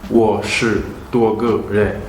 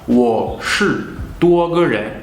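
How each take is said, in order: First: The syllables are read without distinct Mandarin tones. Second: The syllables are read with distinct Mandarin tones. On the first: "Si je vois la transcription phonétique, je le lirai" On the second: "en vrai chinois mandarin, on lira cela"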